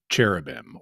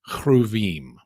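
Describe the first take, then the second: First: The word has an ordinary English pronunciation. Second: The word has a Hebrew-style pronunciation.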